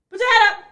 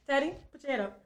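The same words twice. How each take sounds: First: Higher, raised voice giving an order; insistent command. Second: Said in the usual way. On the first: Real, not acted. Speaker breaking off to order Teddy to sit up, insistent and higher. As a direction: repeat the order sharply, pitched up.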